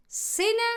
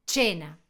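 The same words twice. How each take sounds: First: Higher "cena" as SEH-na, rising; Spanish pronunciation. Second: Low "cena" as CHEH-na, falling; Italian pronunciation. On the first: Teacher cueing the Spanish word, rising "cena" with s. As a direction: say "cena" with an s sound, questioning tune. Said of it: "en español". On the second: Teacher giving the Italian answer, low "cena" with ch. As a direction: say "cena" with ch at the start. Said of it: "cómo se pronuncia". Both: Shown as a demonstration.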